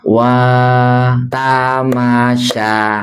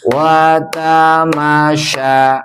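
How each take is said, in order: First: The first syllable wa is held long. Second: No syllable is held long. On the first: "Jadi bacanya wa tamasya" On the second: "nggak ada yang panjang, harus jalan terus"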